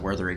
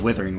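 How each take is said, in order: First: The first vowel sounds like the 'u' in 'hut'. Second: The first vowel sounds like the 'i' in 'with'. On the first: "I always pronounce it Wuthering Waves" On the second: "everyone pronounces it Withering Wave, but it's not W I T H"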